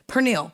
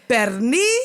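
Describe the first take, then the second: First: The word ends with a clear l sound. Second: The word ends without any l sound.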